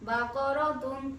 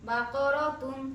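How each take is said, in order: The two takes are said the same way.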